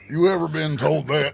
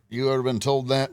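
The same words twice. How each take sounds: First: It is said in a disguised put-on voice. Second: It is said in a plain natural voice. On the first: The speaker calls it right. "Trying to disguise my own" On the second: The speaker calls it wrong. "I don't sound like that though"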